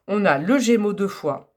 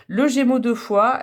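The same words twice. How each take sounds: First: Said in the usual way. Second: «Le Gémeaux deux fois» said slowly, higher and louder; slow dictation emphasis. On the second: Shown as a demonstration. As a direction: spell out «Gémeaux deux fois» so they can note it. (dicté lentement, «Le Gémeaux deux fois» plus haut et plus fort) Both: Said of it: "Donc, notez bien".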